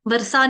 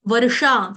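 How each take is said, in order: First: वर्षा said as वर्सा, with "s"; "varsa", plain "s" in वर्षा; mispronounced ष. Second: वर्षा with a clear "sh"; careful "varsha", hushing sound in वर्षा; correct sh sound. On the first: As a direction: flatten the ष of वर्षा into स. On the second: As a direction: restore the full ष in वर्षा. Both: Shown as a demonstration. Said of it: "वर्षा नहीं".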